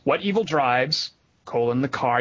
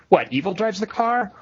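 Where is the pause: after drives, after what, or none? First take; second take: after drives; after what. First: There is a pause right after the word drives. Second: There is a pause right after the first word. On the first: The car is what evil drives. "You could do it that way" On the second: Evil is the thing that drives the car. "there are several different intonations you can do with it"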